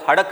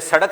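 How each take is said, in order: First: The word begins with an h sound. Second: The word begins with an s sound. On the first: "वो हड़क बोलते हैं" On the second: "सड़क नहीं बोलते"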